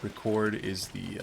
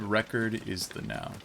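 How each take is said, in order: First: "Record" stressed on the second syllable, ri-KORD, said slowly; slow demo of "Record" as the verb, weight on the end. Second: "Record" stressed on the first syllable, REH-kerd; "Record" as the noun, weight up front. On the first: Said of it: "Record is the, uh, the verb". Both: Shown as a demonstration.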